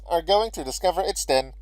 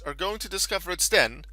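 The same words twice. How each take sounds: First: It is said in a put-on narrator voice. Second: It is said in the speaker's normal voice.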